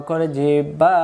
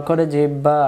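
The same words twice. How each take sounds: The two takes are said the same way.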